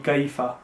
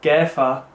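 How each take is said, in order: First: The first vowel sounds like 'eye'. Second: The first vowel sounds like 'air'. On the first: The speaker calls it right. "but here it would be kaifa" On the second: The speaker calls it wrong. "the air sound doesn't really exist"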